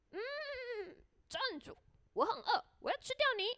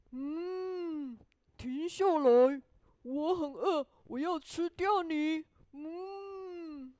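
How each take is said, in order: First: High storybook horse voice; whinny a hum, then squeak out the threat; hungry horse. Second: Booming storybook cow with long moos; moo, then demand loudly and heavily; hungry cow. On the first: Horse halting the gingerbread man, high hungry horse voice. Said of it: "马说". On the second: Cow stopping the gingerbread man, loud mooing cow voice. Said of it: "这只牛说". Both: A narrator's reading.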